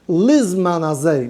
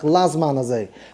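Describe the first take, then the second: First: The first vowel is an 'ee' sound. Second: The first vowel is an 'ah' sound. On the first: The speaker calls it right. "mit Achirik" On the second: The speaker calls it wrong. "nicht kein Pasach"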